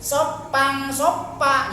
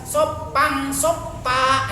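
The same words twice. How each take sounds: Both takes have the same delivery.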